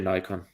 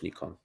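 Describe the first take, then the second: First: The name is pronounced the American way. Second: The name is pronounced the general, international way. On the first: This is how people in America say it. "Americans say Nikon" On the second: This is how it is said in general. "In general, it's Nikon"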